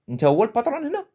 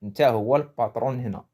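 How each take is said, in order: First: "Nta huwa le patron hena" said high with a rise on "hena"; acted challenge. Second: Said in the usual way. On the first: Shown as a demonstration. Teacher acting out the phrase in Darija as a challenge, higher. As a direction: challenge someone in Darija, pitch up. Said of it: "on peut rajouter le wesh". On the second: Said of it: "C'est ça ce que veut dire la phrase".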